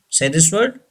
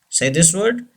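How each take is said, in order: No difference in how they are said.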